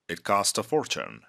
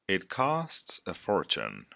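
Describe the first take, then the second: First: The phrase is spoken faster. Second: The phrase is spoken slowly. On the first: "the second time, faster" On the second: "the first time, I'm going to repeat these phrases slow"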